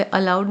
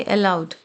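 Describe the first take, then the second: First: अलाउड said quickly as 'a-laud'; the rejected reading. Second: अलाउड opening on a drawn 'el', 'el-laud'; corrected aloud. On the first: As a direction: open अलाउड on a short A. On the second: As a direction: say अलाउड carefully with an E-like first vowel. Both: Shown as a demonstration. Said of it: "यहाँ पे अलाउड नहीं पढ़ेंगे".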